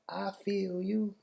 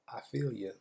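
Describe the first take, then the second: First: Every word is clearly enunciated, ending in 'you'. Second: The words run together, ending in a reduced 'ya'. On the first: The speaker calls it wrong. "nobody says I feel you like that. Like enunciate every word" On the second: The speaker calls it right. "It's almost the I feel ya"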